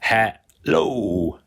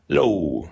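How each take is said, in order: First: "hello" said slowly with a long second syllable lo, falling; "hello" stretched, lo held long and falling; hello split into syllables. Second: Said in the usual way. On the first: Shown as a demonstration. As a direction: draw out the lo in "hello" for the lesson. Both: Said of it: "So second syllable".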